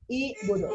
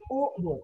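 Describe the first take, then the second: First: The word begins with an i vowel. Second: The word begins with a u vowel. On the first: The speaker calls it wrong. "nggak boleh dibaca i budu, itu salah itu" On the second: The speaker calls it right. "tapi u budu"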